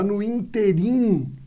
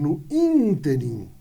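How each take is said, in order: First: The stress falls on the second syllable. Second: The stress falls on the first syllable. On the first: The speaker calls it wrong. "tá no interim ao invés de" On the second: The speaker calls it right. "ao invés de no interim"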